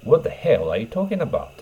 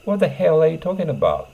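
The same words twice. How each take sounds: First: Said in the usual way. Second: High, loud rough demand; rough and angry. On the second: Shown as a demonstration. Teacher acts out a rough angry speaker, pitched high. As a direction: spit out the question roughly. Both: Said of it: "乱暴ですね".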